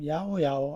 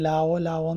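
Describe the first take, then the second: First: The name begins with a Y sound. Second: The name begins with an L sound. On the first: The speaker calls it right. "ഇതിന്റെ ശരിക്കുള്ള ഉച്ചാരണം" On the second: The speaker calls it wrong. "തുടക്കത്തിൽ ഇത് ഞാൻ ലാവോ ലാവോ എന്നാണ് വായിച്ചത്"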